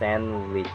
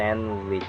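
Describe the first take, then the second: First: The d sound in the middle is silent. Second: The same.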